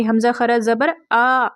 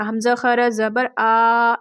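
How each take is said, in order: First: "आ" in "हमज़ा खरा ज़बर आ" held for just one alif length; correct short stretch. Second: The wrong way: "हमज़ा खरा ज़बर आ" drawn out slowly, each vowel dragged far past one alif; overlong stretch. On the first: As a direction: stretch the final "आ" only one alif long, no more. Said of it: "यानी हमज़ा खरा ज़बर आ पढ़ना है". ("आ" को सिर्फ एक अलिफ के बराबर खींचकर) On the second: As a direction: drag out "खरा" and "आ" much too long, as a mistake. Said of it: "ऐसे नहीं पढ़ना". ("हमज़ा खरा ज़बर आ" को ज़रूरत से ज़्यादा खींचकर, गलत तरीका) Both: Shown as a demonstration.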